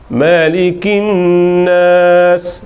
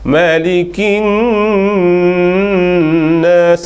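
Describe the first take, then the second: First: The nasal hum is held only briefly. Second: The nasal hum is held too long. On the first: "yang tak tak sapa dua harakat dulu" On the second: "itu dua lebih"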